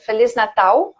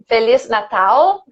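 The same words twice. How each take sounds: First: The L is pronounced the Portuguese way. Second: The L is pronounced like an English L. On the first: The speaker calls it right. "but Feliz Natal" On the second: The speaker calls it wrong. "with the English L"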